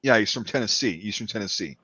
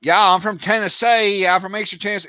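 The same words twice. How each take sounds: First: Low, understated Tennessee accent; lightly Southern Tennessee, trailing low; subtle Eastern Tennessee accent. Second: High, hammed-up Southern twang; mock Tennessee twang, pitched up; overdone Tennessee accent. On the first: Shown as a demonstration. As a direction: keep the Tennessee accent relaxed and soft. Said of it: "subtle yet". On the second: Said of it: "that's not how they talk there".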